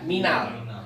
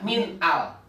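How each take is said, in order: First: The two words are joined together. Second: The two words are said separately. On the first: The speaker calls it right. "tapi harus dibaca minal" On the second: The speaker calls it wrong. "nggak boleh dibaca min al"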